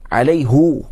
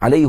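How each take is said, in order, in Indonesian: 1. Kata ini berakhir dengan vokal 'u'. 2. Kata ini berakhir dengan vokal 'i'. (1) "guna alaihu" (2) "betul yang alaihi ha? Betul tidak?"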